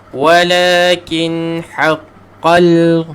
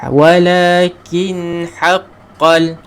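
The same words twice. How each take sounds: The two takes are said the same way.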